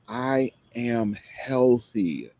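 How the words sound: It is said with strong passion.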